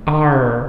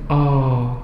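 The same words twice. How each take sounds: First: It is said in an American accent. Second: It is said in a British accent. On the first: "Kalau orang American" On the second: "Kalau kalau British"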